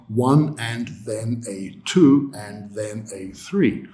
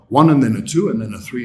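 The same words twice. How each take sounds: First: Every unstressed word is pronounced fully and clearly. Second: The unstressed words are squeezed and reduced. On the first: The speaker calls it wrong. "But we would never pronounce it like that" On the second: The speaker calls it right. "That's what students hear"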